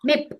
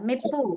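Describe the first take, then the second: First: The word ends on a bare consonant. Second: The word ends with an added vowel sound. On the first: The speaker calls it right. "మిప్ ఇట్లా దాన్ని వదిలేయండి" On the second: The speaker calls it wrong. "అట్లా కాదు"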